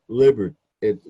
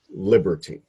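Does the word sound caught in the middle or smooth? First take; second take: caught; smooth. First: The sound catches briefly in the middle. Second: The word flows smoothly without a catch. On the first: The speaker calls it wrong. "you had said it almost like liber it like it caught a little bit" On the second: The speaker calls it right. "the accent on that word is on the first syllable"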